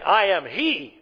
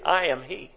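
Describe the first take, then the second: First: The word he carries strong emphasis. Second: The word he carries no special emphasis. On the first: The speaker calls it wrong. "Jesus wasn't saying, ... We're not to read it that way" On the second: The speaker calls it right. "He's simply stating"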